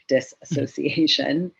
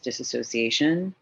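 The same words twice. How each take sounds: First: The word is said slowly and carefully. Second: The word is said at a normal pace.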